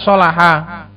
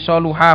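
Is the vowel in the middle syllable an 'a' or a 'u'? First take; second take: a; u. First: The middle syllable has an 'a' vowel. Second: The middle syllable has a 'u' vowel. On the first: This is the more eloquent reading. The speaker calls it right. "solaha ini lebih afshah" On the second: The verb sounds intransitive, like a state. The speaker calls it wrong. "soluha fa'ula"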